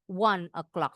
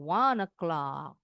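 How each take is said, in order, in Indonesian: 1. Kedua kata itu diucapkan terpisah. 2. Kedua kata itu disambung tanpa jeda. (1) "Bukan berarti bilang one o'clock, salah, betul juga" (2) "bacanya disambung"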